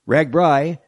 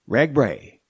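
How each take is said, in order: First: The last syllable rhymes with 'eye'. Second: The last syllable rhymes with 'day'. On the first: This is how most locals say it. "just about everyone around these parts pronounces it Ragbri" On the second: This is how the founder thought it should be said. "he thought it was supposed to be pronounced Ragbray"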